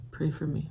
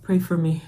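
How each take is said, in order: First: A small, quiet appeal for support; hushed plea. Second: Said in the usual way. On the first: Real, not acted. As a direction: say it much more quietly, almost to yourself. Plea repeated under the breath.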